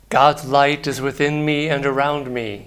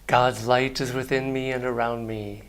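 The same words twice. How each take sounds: First: It is said very loudly. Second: It is said more softly.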